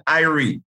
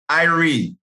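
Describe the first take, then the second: First: "irie" said as eye-ree inside the sentence, falling at the end; "irie": EYE-ree, carried along in the flow of the phrase; Jamaican irie. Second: "Irie" said as eye-ree with a falling close; "Irie": EYE-ree, stress on the first part, dropping off at the end; Jamaican irie. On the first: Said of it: "we say you're feeling irie". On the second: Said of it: "we say". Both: Shown as a demonstration.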